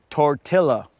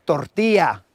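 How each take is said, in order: First: "tortilla" said the English way, hard "l" sounds; anglicized "tortilla" with a plain English L; English pronunciation. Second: "tortilla" with the Spanish "ll" said as a "y"; "tortilla" as tor-TEE-ya, Spanish style; Spanish pronunciation. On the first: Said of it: "instead of tortilla". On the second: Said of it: "say tortilla instead of". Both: Shown as a demonstration.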